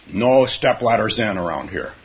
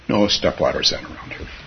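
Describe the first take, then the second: First: It is said in a firm, forceful way. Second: It is said in a soft, gentle way. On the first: The speaker calls it wrong. "Although he did not say it that way" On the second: The speaker calls it right. "He would say, ... he was a yin teacher, not a yang teacher"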